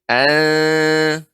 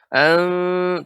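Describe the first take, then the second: First: The voice stays level on the syllable. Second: The voice rises noticeably on the syllable. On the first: The speaker calls it right. "ya lebih datar lagi" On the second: The speaker calls it wrong. "seperti kayak terasa menaikkan suara"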